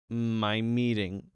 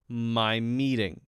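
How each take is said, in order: No difference in how they are said.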